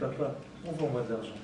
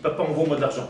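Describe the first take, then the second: First: It is said in a gentle, polite tone. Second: It is said in a harsh, demanding tone.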